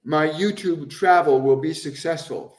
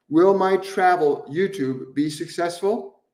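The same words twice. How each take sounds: First: My YouTube travel will be successful said as a firm statement, tune falling at the end. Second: Will my travel YouTube be successful said as a question, tune rising at the end. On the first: Rephrasing the viewer's question as a statement, falling firmly at the end. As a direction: state it with certainty, dropping on successful. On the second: Reading the viewer's question aloud as a question, rising tune at the end. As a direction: ask it, letting successful lift up. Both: Shown as a demonstration. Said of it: "one is a statement and one is a question".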